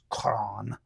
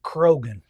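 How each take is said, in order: First: The name has one syllable with no g sound. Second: The name has two syllables with a g sound. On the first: This follows the Gaelic origin. The speaker calls it right. "it's a Gaelic name, so it would have been pronounced Cron" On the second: This follows the spelling. The speaker calls it wrong. "You'll want to pronounce it Krogan"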